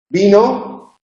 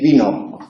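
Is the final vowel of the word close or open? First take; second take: close; open. First: The final vowel is close and unopened. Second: The final vowel is noticeably opened. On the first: It is the singular form. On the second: It is the plural form.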